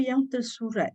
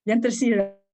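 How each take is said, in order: First: Yang tersurat, said as the mistaken word; wrong word tersurat. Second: Yang tersirat, said louder, tersirat with a clear i; right word tersirat. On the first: Teacher to class, giving the wrong word tersurat first. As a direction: tersurat with the u sound, the wrong one. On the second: Teacher to class, correcting to tersirat, said louder. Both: Shown as a demonstration. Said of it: "Not tersurat".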